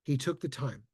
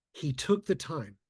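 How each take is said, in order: First: Said in the usual way. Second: He took the time, said slowly with weight after a pause; slow emphatic repeat. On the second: Shown as a demonstration. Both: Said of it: "here's what he did".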